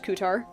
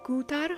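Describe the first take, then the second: First: The r sound is a plain American r. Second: The r sound is rolled on the tongue. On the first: "boring American English" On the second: "this is like a roll in the tongue"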